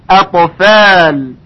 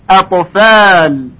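No difference in how they are said.

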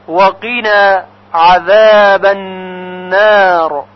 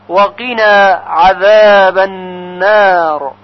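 The two takes are said the same way.

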